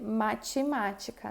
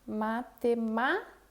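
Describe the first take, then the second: First: The 'ti' sounds like 'chi'. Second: The 'ti' has a plain t sound. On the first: The speaker calls it wrong. "Eu não vou dizer matemática" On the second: The speaker calls it right. "ele não é pronunciado como ti"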